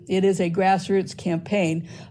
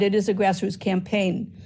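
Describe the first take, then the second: First: The sentence is spoken at a slower pace. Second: The sentence is spoken at a faster pace.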